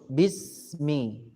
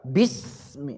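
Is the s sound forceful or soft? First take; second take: soft; forceful. First: The s sound is hissed softly and gently. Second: The s sound is hissed strongly and forcefully. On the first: The speaker calls it right. "Yang lembut bismi" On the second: The speaker calls it wrong. "dengan kuat bismi, enggak"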